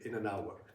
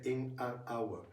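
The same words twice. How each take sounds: First: The words run together, linked into one another. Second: Each word is said separately, without linking. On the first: Few Japanese listeners will understand it. The speaker calls it wrong. "maybe ten percent of the people should understand" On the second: Most Japanese listeners will understand it. The speaker calls it right. "eighty percent of the Japanese people will understand"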